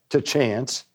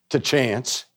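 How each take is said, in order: No difference in how they are said.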